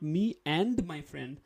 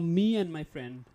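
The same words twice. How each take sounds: First: The word 'and' is said in full. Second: The word 'and' is reduced to an n sound. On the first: The speaker calls it wrong. "not me and my friend" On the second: The speaker calls it right. "just say the middle one, only the alphabet n"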